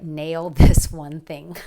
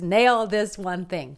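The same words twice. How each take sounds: First: Each word slow and weighted, "Nail this one thing" spelled out; slow emphatic. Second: "Nail this one thing" slow, stress on "Nail"; slow emphatic. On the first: Telling viewers what to comment, slow and emphatic. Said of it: "I want you to write". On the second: Repeating the comment for viewers, slow stress on "Nail". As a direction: press down on "Nail", slowly. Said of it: "Make sure you do it right now". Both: Shown as a demonstration.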